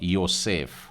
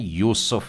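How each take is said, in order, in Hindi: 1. यह नाम 'oh' और 'e' स्वरों के साथ बोला जाता है: Yosef। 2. यह नाम 'oo' स्वरों के साथ बोला जाता है: Yusuf। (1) "इसका उच्चारण इब्री में थोड़ा सा फर्क आ रहा है" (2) "इसको हम लोग उच्चारण करते हैं हिंदी में यूसुफ बोलकर"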